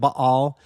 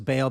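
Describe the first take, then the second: First: The name is said with a throaty, guttural sound. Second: The name is said plainly, without a throaty sound. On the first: "a unique that guttural sound" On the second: "it's easier to say"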